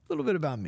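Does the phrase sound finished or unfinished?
finished. The phrase ends as a complete, closed statement. Only a little was said about oneself. "you should have said it like that"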